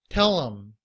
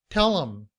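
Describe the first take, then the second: The two takes are said the same way.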